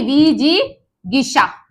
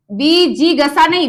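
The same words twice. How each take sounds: First: विजिगिसा slowly, the गि clearly sounded; slow correct form. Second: विजिगसा said with a short गस, marked as wrong; wrong form shown. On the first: (धीरे-धीरे सही: विजिगिसा) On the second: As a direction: reject विजिगसा firmly. (गलत उच्चारण: विजिगसा) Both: Shown as a demonstration.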